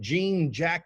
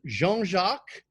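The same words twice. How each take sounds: First: It is read the English way, without nasal vowels. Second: It is said the French way, with nasal vowels. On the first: The speaker calls it wrong. "I know that looks like" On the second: The speaker calls it right. "Remember the French, it's all nasal"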